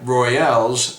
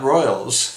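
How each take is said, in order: First: It is said differently from the word royals. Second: It is said like the ordinary word royals. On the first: The speaker calls it right. "That's right, Royales" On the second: The speaker calls it wrong. "not Royals"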